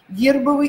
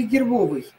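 First: Гербовый stressed on «гер»; Гербовый with a full stressed Е. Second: Гербовый stressed on «бо»; гербовый with a full stressed О. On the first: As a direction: hit the first syllable of Гербовый. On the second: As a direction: hit the middle syllable of гербовый. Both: Shown as a demonstration. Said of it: "Е или О".

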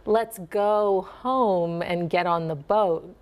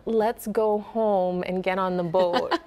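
First: Slow, with the dip in home; softened Minnesota accent, slow dip. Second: Slow, rounded Minnesota O in boat. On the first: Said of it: "if you wanted to soften your Minnesota accent". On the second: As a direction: stretch the home and boat vowels. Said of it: "It was like". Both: Shown as a demonstration.

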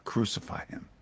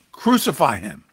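First: Hushed breathy crucify him, said under the breath; soft unvoiced crowd demand; shouted crowd cry. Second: Louder crowd cry, words pressed down hard. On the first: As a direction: let the mob's cry land in a hush. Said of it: "But they shouted all the more". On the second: Acted. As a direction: call it out like the mob demanding death. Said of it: "And they cried out".

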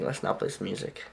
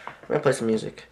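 First: Whispered, "not" stressed and falling; whispered correction. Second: Said in the usual way. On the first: Real, not acted. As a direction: breathe "Let's not play some music" with a falling "not".

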